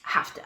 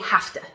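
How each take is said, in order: First: The two words are blended into one reduced form. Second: The two words are blended into one reduced form.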